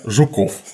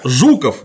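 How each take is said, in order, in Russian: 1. Ударение на втором слоге. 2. Ударение на первом слоге. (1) "иначе я звал бы себя Жуков, это как-то не очень благозвучно" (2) "я всем делаю ударение тоже на первый слог"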